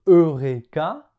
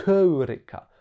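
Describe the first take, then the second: First: Said in the usual way. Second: "Heureka" with a strongly breathed H at the start; H aspiré initial. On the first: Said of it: "En français, on prononce". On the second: Shown as a demonstration. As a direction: puff out the H before "Heureka", as in English hungry. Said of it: "déjà, on devait prononcer comme". (« Heureka » avec un H fortement soufflé au début)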